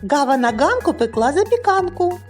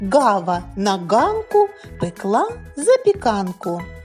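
First: The phrase is said at a fast pace. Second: The phrase is said at a slow pace.

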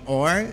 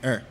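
First: The word is said fully with a clear vowel. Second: The word is reduced to a weak vowel sound. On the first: "Il est prononcé comme OR" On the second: "on prononce like er"

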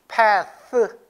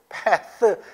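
No difference in how they are said.

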